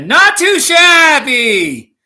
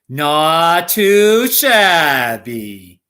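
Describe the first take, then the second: First: It is yelled loudly with high energy. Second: It is said with ordinary lively intonation. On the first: "more like a yelling" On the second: "one's the classic"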